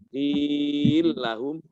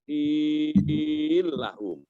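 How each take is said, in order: First: The vowel in qil is held medium length. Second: The vowel in qil is held very long. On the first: "empat harokat" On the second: "atau enam harokat"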